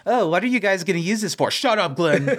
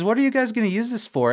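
First: Higher-pitched mimicry, then a curt dismissal; mocking silly voice. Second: Lightly voiced questioning quote, pitched higher; Glenn. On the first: Sean mimics Glenn's question to shut him up, mocking silly voice. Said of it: "The voice that he uses". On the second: Glenn asks about the suit, lightly voiced worried question. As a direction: put a hint of higher-voiced doubt into the question. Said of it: "And he says".

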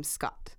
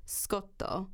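First: Said in the usual way. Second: "Scotto" said slowly with an added final o; distinct Japanese rendering. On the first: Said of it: "rendering of the unfamiliar English name". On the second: A narrator's reading. Quoting the caller's Japanese rendering of the name, distinct "Scotto". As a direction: pronounce "Scotto" distinctly, ending on a clear o. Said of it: "quite distinctly".

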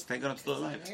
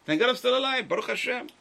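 First: Said in the usual way. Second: Lifts it high and loud in thanks; joyful exclamation. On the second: Retold or imitated. Rabbi voicing a grateful survivor, joyful and loud. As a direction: cry out your gratitude like a survivor.

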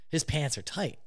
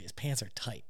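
First: Said in the usual way. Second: Much softer, a hushed repeat; hushed aside. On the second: Retold or imitated. [name] repeating the tight-pants remark, hushed. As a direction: drop it to a near-hush.

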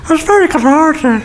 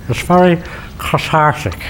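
First: Higher, teasing mimic of "It's very cathartic" in his friend's voice; imitating Tommy. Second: Said in the usual way. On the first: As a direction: parrot his friend back, pitched up and mocking. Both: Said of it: "That's what you'd say, Tommy".

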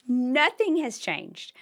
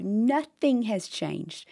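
First: "Nothing" stressed, pitched up and slow; higher emphatic repeat. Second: "nothing" drawn out slowly and stressed; slow emphatic. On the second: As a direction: lean slowly on "nothing has changed". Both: Real, not acted. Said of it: "Let me tell you".

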